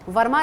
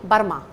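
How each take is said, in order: First: The word begins with a V sound. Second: The word begins with a B sound. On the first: The speaker calls it wrong. "वर्मा नहीं" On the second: The speaker calls it right.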